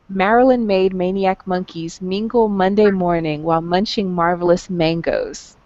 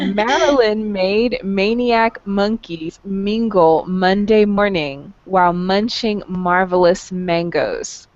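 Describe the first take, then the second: First: It is said fast. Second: It is said slowly.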